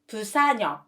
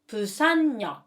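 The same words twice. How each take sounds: First: Yeok follows with no added n sound. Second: An added n sound comes before yeok. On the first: The speaker calls it wrong. "you should not pronounce Busan역" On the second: The speaker calls it right. "but Busan역"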